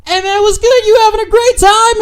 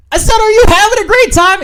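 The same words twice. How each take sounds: First: High, loud bar-side shout; shouted greeting. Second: Very high, loud, insistent shout; louder shouted repeat. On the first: Man hailing a stranger at the bar, loud and high. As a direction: imitate calling out over a noisy bar. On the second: Repeating himself to a woman who didn't hear, shouted. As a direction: repeat it as if she couldn't hear you. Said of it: "In case she didn't hear me". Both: Retold or imitated.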